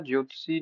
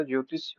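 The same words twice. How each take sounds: First: ज्योतिषी ending 'tsee'; rejected form. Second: Said in the usual way. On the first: Shown as a demonstration. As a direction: say ज्योतिषी as 'jyotsee', with final ee. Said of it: "नहीं होता". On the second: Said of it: "होता है".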